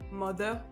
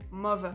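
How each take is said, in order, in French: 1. La consonne du milieu est un son th. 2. La consonne du milieu est un son v. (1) "au lieu de dire" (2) "le T H par exemple, est prononcé plutôt comme un F ou un V"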